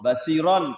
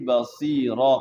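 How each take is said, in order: First: The word ends with an n sound. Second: The word ends on a long vowel. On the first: The reading continues without stopping. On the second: The reader stops at this word.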